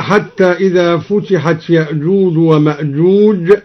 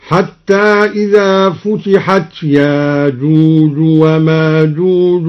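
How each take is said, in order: First: Said in the usual way. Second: Slow chant, ياجوج وماجوج with long "aa", no glottal stop; hamza replaced. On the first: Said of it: "قرأ الدوري بإبدال الهمز". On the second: Shown as a demonstration. Teacher demonstrates the substitution, ياجوج وماجوج chanted without hamza. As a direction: chant ياجوج as "yaajooj", smoothly lengthened. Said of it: "بإبدال الهمز هكذا".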